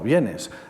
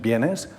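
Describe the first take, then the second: First: It is said as a plain statement. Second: It is said as a question. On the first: The speaker states that someone is coming. "afirmación" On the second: The speaker is asking whether someone is coming. "interrogación"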